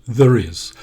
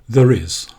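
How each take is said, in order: No difference in how they are said.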